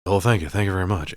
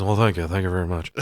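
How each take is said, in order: First: Leprechaun lightly imitating a rock-and-roll singer. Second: Lightly voiced bad celebrity impersonator; poor mock singer thanks. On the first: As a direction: toss back a more convincing singer's catchphrase. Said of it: "he's way better at it than this other dude". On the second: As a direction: do a half-hearted singer's catchphrase. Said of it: "This guy is also not good at being a famous singer".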